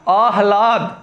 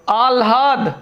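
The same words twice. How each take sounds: First: आह्लाद said as āh-lād, h first; correct pronunciation. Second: आह्लाद said as āl-hād, l first; wrong pronunciation. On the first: Teacher giving the correct form, correct pronunciation. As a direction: breathe h before l in आह्लाद. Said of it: "इधर आपको शुद्ध में मिलेगा". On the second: Teacher reading the misspelt word, wrong pronunciation. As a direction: put l before h in आह्लाद. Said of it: "ये गलत लिखा हुआ है". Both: Shown as a demonstration.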